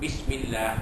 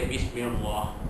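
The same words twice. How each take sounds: First: The 'l' in Allah is thin and light. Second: The 'l' in Allah is thick and heavy. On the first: The speaker calls it right. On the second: The speaker calls it wrong.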